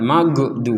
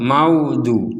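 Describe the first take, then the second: First: The middle consonant is a bouncing, released g. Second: The middle consonant sounds like a w. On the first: "atau dibaca qalqalah, dibaca mental" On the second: "Juga tidak boleh seperti wawu"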